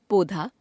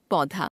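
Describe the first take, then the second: First: पौधा as "podhaa", close o for au; wrong pronunciation. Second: Said in the usual way. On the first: Shown as a demonstration. Teacher showing an o-au error, पौधा said as "podhaa". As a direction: narrow the vowel of पौधा. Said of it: "अशुद्ध". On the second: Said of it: "शुद्ध".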